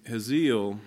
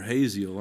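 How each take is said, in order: First: "Hazael" said HEZ-eel, stress on the first syllable; "Hazael" as two syllables, HEZ-eel; "Hazael" pronounced HEZ-eel; one way of saying it. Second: "Hazael" said hay-ZEE-luh with a long A; "Hazael" as hay-ZEE-luh, three syllables; "Hazael" tried again as hay-ZEE-luh; another pronunciation. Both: Shown as a demonstration. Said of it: "not sure exactly how you pronounce that".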